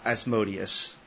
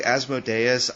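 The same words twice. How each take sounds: First: Asmodeus as the speaker always read it; own pronunciation of Asmodeus. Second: Asmodeus said the way the cartoon says it; cartoon-style Asmodeus, set against the speaker's own; cartoon pronunciation of Asmodeus. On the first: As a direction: say Asmodeus the reader's way, not the cartoon's. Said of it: "I always thought Asmodeus". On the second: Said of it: "in the cartoon they say". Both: Shown as a demonstration.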